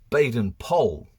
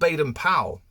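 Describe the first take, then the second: First: Powell rhymes with Noel, Baden with maiden. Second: Powell does not rhyme with Noel. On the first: The speaker calls it right. "we're meant to pronounce it Baden Powell" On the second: The speaker calls it wrong. "it's not Baden Powell"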